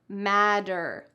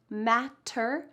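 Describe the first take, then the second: First: The middle consonant is a soft D sound. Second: The middle consonant is a crisp T sound. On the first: The speaker calls it right. "They're pronounced in American English, like a D" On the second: The speaker calls it wrong. "are not pronounced like that"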